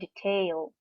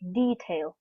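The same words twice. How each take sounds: First: The stress is on the second syllable. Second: The stress is on the first syllable. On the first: The speaker calls it wrong. "not detail" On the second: The speaker calls it right. "the stress is on the first syllable"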